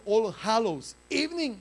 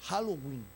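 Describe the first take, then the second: First: "All Hallows Evening" spelled out, with "Evening" given in full; uncontracted pronunciation. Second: "Halloween", the full phrase squeezed into one contracted word; contracted pronunciation. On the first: Preacher showing the congregation the original phrase, uncontracted pronunciation. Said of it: "en lugar de decir". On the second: Preacher showing how the English said it, contracted pronunciation. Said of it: "todo contraído en ese acento". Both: Shown as a demonstration.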